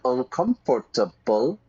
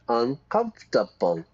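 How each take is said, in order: First: The word is said with five full syllables. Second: The word is said with four syllables. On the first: The speaker calls it wrong. "Not uncomfortable" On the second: The speaker calls it right. "Four syllables"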